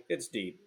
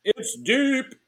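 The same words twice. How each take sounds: First: Quiet, deep-voiced announcer call; dropping voice deep. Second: High, loud ballpark announcer; excited announcer call. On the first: Shown as a demonstration. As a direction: drop the voice on deep. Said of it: "So it's high, it's deep". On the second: Pretend. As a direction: sell the home run to the crowd. Baseball home run call.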